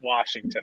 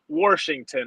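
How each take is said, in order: First: No r sound is heard in the first syllable. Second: An r sound is heard in the first syllable. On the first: This is how people elsewhere say it. "others would likely pronounce it Washington" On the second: This is how locals say it. "as we say it here in Pittsburgh"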